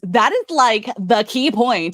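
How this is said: It is said in a put-on imitating voice.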